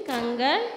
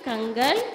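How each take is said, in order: The two takes are said the same way.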